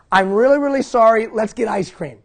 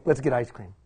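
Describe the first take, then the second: First: Higher, louder, pleading then bribing with a laugh; eager apology. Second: Lower, softer, knowing aside on "Let's get ice cream."; deadpan the cure-all line; wry punchline. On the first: Retold or imitated. Dad hurrying to his daughter at the stairs, eager apology. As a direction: rush to make it right, then offer the treat. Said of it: "I said this". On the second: Shown as a demonstration. Speaker mocks dads' cure-all to the audience, wry aside. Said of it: "that's the answer for everything".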